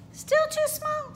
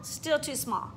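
First: Much higher and slow; slow rising question. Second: Said in the usual way. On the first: Acted. Teacher asks if the next studio fits, high and slow. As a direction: ask hopefully.

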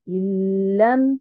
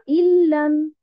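First: Lam said slowly with a doubled l; correct lam. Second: Illam said with an extra i at the start; wrong illam. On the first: Teacher models the right lam for the class. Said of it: "je dis lam". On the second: Teacher contrasts the wrong illam for students. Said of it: "et non pas". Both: Shown as a demonstration.

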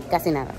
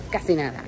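Both takes have the same delivery.

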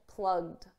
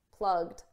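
The two takes are said the same way.

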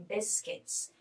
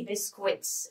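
First: Biscuits. said as "bis-kits", ui like a short i; whispered correct Biscuits, no w sound: bis-kits; correct pronunciation. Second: Biscuits said as "bisk-wits", the ui sounded like "wee"; wrong French-style ui. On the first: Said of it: "We can't say biscuits". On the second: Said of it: "you and I are not pronounced we like French". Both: Shown as a demonstration.

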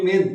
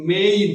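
First: মেন with a plain short e, like men; common wrong main. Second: মেইন with an ei glide, like mein; correct main. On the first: Teacher to students, showing the wrong মেন with a short e. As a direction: say মেন with no glide. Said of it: "যেটাকে আমরা বলি". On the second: Teacher to students, giving the correct মেইন with the ei glide. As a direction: say মেইন with a clear diphthong. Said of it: "উচ্চারণটা হবে". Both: Shown as a demonstration.

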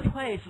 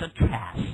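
First: Trace misread with short A as in "cat"; wrong short vowel. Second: Trace with long A as in "day"; drawn-out long A in trace; open-syllable vowel. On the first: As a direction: say "trace" as "trass". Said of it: "not trace". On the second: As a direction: say "trace" very slowly as "trayce". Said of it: "为什么要读的trace呢". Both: Shown as a demonstration.

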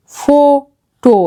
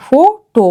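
First: ফোটো stretched very slowly with long ও sounds; slow demo word. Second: Said in the usual way. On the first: Shown as a demonstration. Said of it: "সেরকমভাবে". (ধীরে টেনে ফোটো) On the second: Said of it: "এখানে দেখো ও দুটোতেই open আছে".

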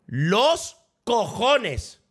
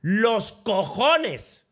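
First: Slow "¡Los cojones!" with the stress moved onto "los"; emphatic refusal. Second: Drawn-out, stressed "¡Los cojones!" with "cojones" hit hard; slow outraged "¡Los cojones!" leaning on "cojones"; emphatic refusal. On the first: Repeating the refusal to a wedding, slow with "los" stressed. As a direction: punch "los" and drag out "¡Los cojones!". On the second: Streamer refusing a wedding on game launch day, drawn-out stress on "cojones". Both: Real, not acted.

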